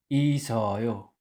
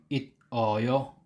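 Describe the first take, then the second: First: An s sound links smoothly into the next syllable. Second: A final t sound, then a separate oyo. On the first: The speaker calls it right. "Ang pagbasa niya ay isoyo" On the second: The speaker calls it wrong.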